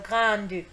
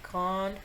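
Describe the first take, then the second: First: The final e is pronounced as a vowel. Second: The final e is silent. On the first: The speaker calls it wrong. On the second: The speaker calls it right.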